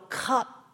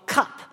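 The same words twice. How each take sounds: First: The word is stretched out slowly and enunciated. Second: The word is said at normal speed.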